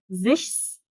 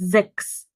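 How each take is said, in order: First: The middle consonant is an sh sound. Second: The middle consonant is a plain k sound. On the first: The speaker calls it wrong. "ما تقوليش إيه زِشس أو زِخس falsch غلط" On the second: The speaker calls it right. "هتقولي sechs"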